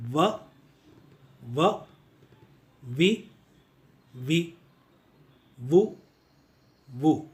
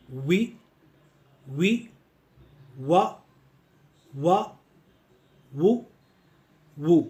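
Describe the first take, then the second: First: व, वि, वु said as va, vi, vu; व, वि, वु begun with a V; V-sound drill. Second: वि, व, वु said as wi, wa, wu; वि, व, वु begun with English W; W-sound drill. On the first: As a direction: drill व, वि, वु with lip on teeth, each apart. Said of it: "वी A डब्ल्यू यानी वाव". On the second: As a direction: drill वि, व, वु with rounded lips, each apart. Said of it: "डब्ल्यू O डब्ल्यू". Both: Shown as a demonstration.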